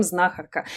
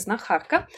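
First: Знахарка stressed on the first syllable, ZNA-khar-ka; everyday pronunciation of знахарка, first syllable stressed; current stress. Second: Знахарка stressed on the second syllable, zna-KHAR-ka; older pronunciation of знахарка, middle syllable stressed. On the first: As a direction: put the stress on the opening "зна" of знахарка. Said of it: "мы уже давным-давно говорим". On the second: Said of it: "правильно говорилось знахарка". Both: Shown as a demonstration.

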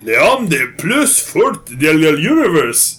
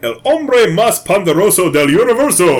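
First: Slow, halting phrasebook French; terrible French. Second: Careful, halting Spanish phrasebook reading. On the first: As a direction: fake a bad French accent, slowly. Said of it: "That's my terrible French". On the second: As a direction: read the Spanish out like a tourist. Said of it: "Read that second line". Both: Shown as a demonstration.

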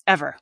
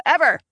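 First: Said in the usual way. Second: Ever said high, with a laugh; emphatic laughing Ever. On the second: Real, not acted. Repeating ever for the interviewer, high and laughing. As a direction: punch Ever, laughing at the idea.

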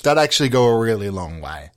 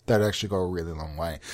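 First: Said in the usual way. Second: Low, quick, under the breath; muttered repeat. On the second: Real, not acted. Comedian repeating to himself about forgetting bad films, quiet mutter. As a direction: drop it right down and mutter it to yourself.

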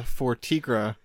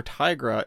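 First: "Tigra" said TEE-gra, very slow; TEE-gra pronunciation. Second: "Tigra" said TIE-gra; "Tigra" like tiger; long-i Tigra. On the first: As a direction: drag out "for Tigra" with an ee sound. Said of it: "two votes". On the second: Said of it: "one thousand votes for Tigra". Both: Shown as a demonstration.

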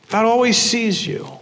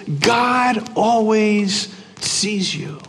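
First: Said in the usual way. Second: Very slow, hushed and deliberate; slow emphasis. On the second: Real, not acted. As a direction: let each word land slowly. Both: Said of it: "The point is this".

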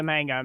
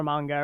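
First: "manga" with a short A as in "man"; "manga" the Americanized way, MANG-guh; first pronunciation variant. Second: "manga" with a broad AH in the first syllable; "manga" with the A of "father"; alternative pronunciation. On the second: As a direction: say "manga" as MAHN-guh. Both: Shown as a demonstration. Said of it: "however you wanna say it".

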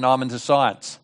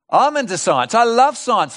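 First: Low, offhand brush-off; dismissive quote. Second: Raised, emphatic delivery; keen enthusiasm. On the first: Retold or imitated. Sceptic turning down the preacher's gospel, low and offhand. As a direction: brush off religion in a lower, matter-of-fact voice. Quoting people who dismiss religion. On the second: Real, not acted. Preacher claiming science for believers, keen and emphatic. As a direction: declare it with lifted pitch and conviction.

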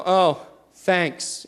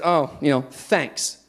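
First: Put-on flat, grudging "thanks" of a sulky kid; sarcastic thanks. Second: Low, fading sarcastic "thanks". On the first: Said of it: "just like that". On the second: Retold or imitated. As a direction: mumble it out sarcastically. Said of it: "with a sarcastic tone".

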